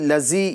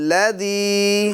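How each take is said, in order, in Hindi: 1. बीच का व्यंजन भिनभिनाती z ध्वनि है। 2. बीच का व्यंजन सघोष th ध्वनि है। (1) "ज़ा की आवाज़ पैदा ना होने पाए, लज़ी लज़ी ये तरीका गलत है" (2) "ज़ाल की आवाज़ आएगी"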